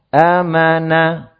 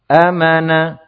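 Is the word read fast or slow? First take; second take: slow; fast. First: The word is read at a slower tempo. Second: The word is read a little faster. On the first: "Kalau tadi kan kita" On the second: "Antum baca agak cepat sedikit"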